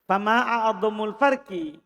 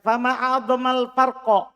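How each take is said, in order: First: The endings are read with 'u' and 'i' vowels. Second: The endings are read with 'a' vowels. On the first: It states what the greatest difference is. "Itu kalau dibaca a'adhamu" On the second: It expresses amazement at how great the difference is. "Kalau a'adhama berarti antum takjub"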